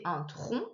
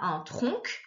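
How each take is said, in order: First: The final C is silent. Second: The final C is sounded as a K. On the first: The speaker calls it right. "c'est un tronc, comme un tronc d'arbre" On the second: The speaker calls it wrong. "alors on n'entend pas"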